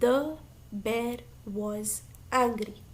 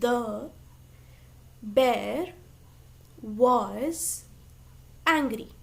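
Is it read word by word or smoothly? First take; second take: smoothly; word by word. First: The whole sentence is read smoothly together. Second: Each word is read separately with pauses.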